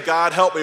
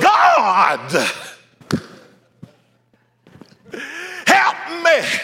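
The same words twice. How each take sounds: First: It is said plainly and simply. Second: It is said with dramatic, exaggerated emphasis.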